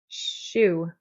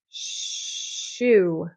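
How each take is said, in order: First: The sh sound is held moderately long. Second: The sh sound is held out long.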